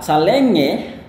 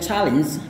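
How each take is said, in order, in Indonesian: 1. Kata itu diucapkan dengan gaya pelafalan Indonesia. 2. Kata itu diucapkan dengan pelafalan Inggris asli. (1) "cara penyebutan yang kayak uh, calenge, kita ngomongnya kayak gitu" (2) "Ketika orang bule ngomong bilang challenge"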